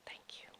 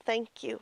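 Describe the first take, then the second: First: Barely audible whispered thanks. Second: Said in the usual way. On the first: Shown as a demonstration. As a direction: whisper it softly to yourself. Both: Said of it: "And whisper to yourself".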